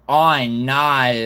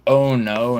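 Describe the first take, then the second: First: Slow, drawn-out Australian "oh no"; louder, hammed-up Australian accent. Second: Said in the usual way. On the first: Shown as a demonstration. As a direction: stretch it into broad Australian vowels. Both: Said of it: "in an Australian accent".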